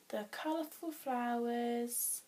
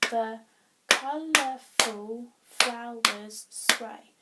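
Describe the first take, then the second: First: Said in the usual way. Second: "The colourful flowers sway" loud, slow, every syllable separate; counting syllables. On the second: Shown as a demonstration. Teacher testing if the second line works, loud separate beats. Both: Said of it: "Let's see if that works".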